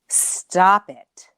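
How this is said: It is said deep, from the gut.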